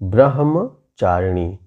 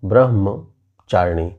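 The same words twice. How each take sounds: First: The h sound comes before the m sound. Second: The m sound comes before the h sound. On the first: The speaker calls it right. "जबकि होना चाहिए ब्रह्मचारिणी" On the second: The speaker calls it wrong. "पहले माँ उसके बाद हा बोलते हैं"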